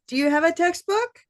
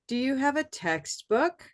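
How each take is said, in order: First: The pitch does not dip low on 'text'. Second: The pitch dips low on 'text', then rises. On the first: The speaker calls it wrong. "Does not sound normal" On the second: The speaker calls it right. "that sounds normal"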